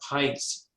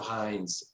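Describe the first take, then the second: First: The name is pronounced the German way. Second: The name is pronounced the American way. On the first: It shows a German heritage. "he pronounced the the ketchup" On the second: It hides a German heritage. "instead of"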